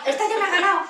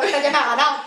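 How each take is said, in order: First: Higher and louder "Esta ya me ha ganado" with real amusement; amused repeat. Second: Laughing aside. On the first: Teacher repeats that the mother won her over, higher and louder. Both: Real, not acted.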